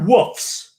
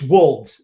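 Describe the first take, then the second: First: The word ends with an f sound. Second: The word ends with a clear v sound. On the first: The speaker calls it wrong. "not woofs. ... There's no F in there" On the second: The speaker calls it right. "it's wolves"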